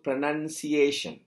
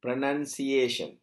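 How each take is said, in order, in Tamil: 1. இரண்டாவது அசை 'nun' போல ஒலிக்கிறது. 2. இரண்டாவது அசை 'nun' போல ஒலிக்கிறது.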